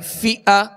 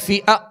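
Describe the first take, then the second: First: The middle vowel starts smoothly without a jolt. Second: The middle vowel starts with an abrupt jolt. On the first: The speaker calls it right. "आवाज और मुंह खोलकर और बगैर खींचे अदा करेंगे" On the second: The speaker calls it wrong. "जैसे फिआ ऐसे झटका नहीं देंगे"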